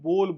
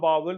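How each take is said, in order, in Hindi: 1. इसमें एक साफ़ लंबा 'o' स्वर है। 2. यह दो शब्दांश में बोला जाता है, जैसे 'ba-wal'। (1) "इसको बोल बोलते हैं सीधा सीधा" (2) "ना बावल बोलते हैं"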